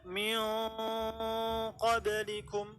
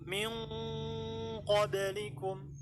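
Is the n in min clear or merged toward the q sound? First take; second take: clear; merged. First: The n is a clear tongue-tip sound. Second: The n is made at the back, like q. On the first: The speaker calls it wrong. "nggak dibaca min qablikum" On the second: The speaker calls it right. "ditempelkan di posisi makhrajnya qaf"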